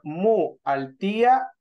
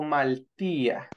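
First: The u is kept, giving two parts mu altía. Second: The u is dropped, giving one smooth word maltía. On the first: The speaker calls it wrong. "¿Cómo nos quedaría mejor?" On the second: The speaker calls it right. "Entonces ahí se le va la U"

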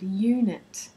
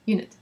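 First: The first vowel is long and exaggerated. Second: The first vowel is short. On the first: The speaker calls it right. "you need to emphasize that long sound" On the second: The speaker calls it wrong. "people would say"

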